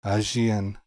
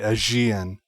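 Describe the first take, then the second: First: The middle consonant sounds like a J. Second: The same.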